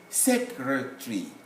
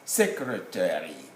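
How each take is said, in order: First: It is said with a British accent. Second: It is said with an American accent. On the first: "when you come to the uh, uh, U K, you say secretary" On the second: "But in America, that will be pronounced as secretary"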